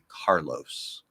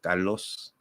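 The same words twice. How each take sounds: First: The name is said with an English R and O. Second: The name is said with a non-English R and O. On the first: "So it'd be Carlos" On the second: "not like Carlos"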